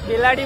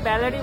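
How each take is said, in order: First: The first vowel is closer, as in 'bet'. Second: The first vowel is open, as in 'bat'. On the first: The speaker calls it right. "বেলারি বলে" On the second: The speaker calls it wrong. "এটাকে ব্যালারি বলে না"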